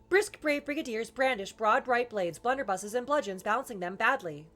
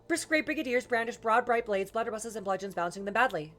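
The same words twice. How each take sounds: First: It is said somewhat faster than ordinary speech. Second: It is said as fast as possible. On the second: "as fast as I can"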